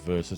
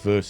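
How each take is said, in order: First: The word is said as two syllables. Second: The word is said as one syllable. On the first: The speaker calls it right. "it is verses" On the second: The speaker calls it wrong. "It's not verse"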